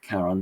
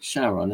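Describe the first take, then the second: First: The name is said the Greek way. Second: The name is said the common way. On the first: This follows the name's Greek origin. "we should really call it Charon" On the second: This is how most people say it. "most people call it Charon"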